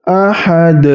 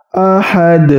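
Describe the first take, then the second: No difference in how they are said.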